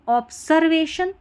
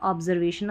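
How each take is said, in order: First: It is said with an s sound after ob. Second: It is said with a z sound after ob. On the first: The speaker calls it wrong. "अगर मैं पढ़ूँ ऑब्सर्वेशन नहीं" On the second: The speaker calls it right. "अगर मैं बोलूँ ऑब्जर्वेशन"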